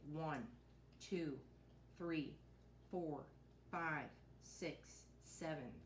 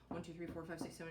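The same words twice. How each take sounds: First: The numbers are counted slowly, one by one. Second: The numbers are counted quickly, rushing together. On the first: Each number is matched to one touched object. The speaker calls it right. "make sure that they go at a slower pace" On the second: The counting outruns the objects being touched. The speaker calls it wrong. "a lot of times kids will want to go"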